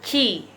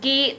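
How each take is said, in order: First: The syllable begins with a ch-like sound. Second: The syllable begins with a hard k sound. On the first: The speaker calls it right. "tapi ci" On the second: The speaker calls it wrong. "bacanya bukan ki"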